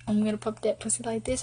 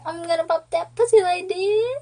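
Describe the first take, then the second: First: Said in the usual way. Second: High-pitched imitation, rising to the end; mock yelling. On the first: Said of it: "he said". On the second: Girlfriend mimicking boyfriend's yelled song, high mock yell. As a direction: mimic him hollering the lyric, pitched way up. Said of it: "He kept yelling".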